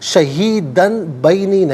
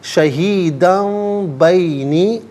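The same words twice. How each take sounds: First: A clear N sound comes before the B. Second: A nasal M sound comes before the B. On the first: The speaker calls it wrong. "नहीं" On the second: The speaker calls it right. "मीम से चेंज करके मीम की आवाज़ को गुन्ने के साथ"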